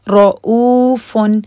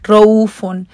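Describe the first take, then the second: First: The middle glottal catch is clear and held. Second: The middle glottal catch is weak or missing. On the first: The speaker calls it right. "इसमें हमजा टू counts है और रॉ अलग है, वो हैवी है" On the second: The speaker calls it wrong. "अक्सर लोग हमजा को सही से नहीं पढ़ते"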